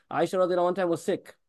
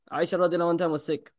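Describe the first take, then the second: No difference in how they are said.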